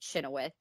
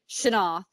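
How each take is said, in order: First: The name is said as Chenoweth. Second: The name is said as Shanoff. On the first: The usual local pronunciation of the name. The speaker calls it wrong. "you don't pronounce it Chenoweth ... that's how we pronounce it in America" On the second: The family's own old-fashioned pronunciation. The speaker calls it right. "that's how they pronounced it"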